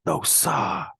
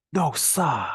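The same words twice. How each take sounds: First: High Boston "No, sir" with "sir" as "sa", exclaimed; Boston accent. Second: High exclaimed "No, sir" in a Boston accent, "sir" as "sa"; Boston "No, sa!" in disbelief. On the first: Teacher closing with the Boston exclamation. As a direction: cry "No, sa!" Boston style. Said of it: "the pronunciation of sir is sa". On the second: Teacher performing Boston "No, sir" for no way. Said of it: "what's common in the Boston area is to say". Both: Shown as a demonstration.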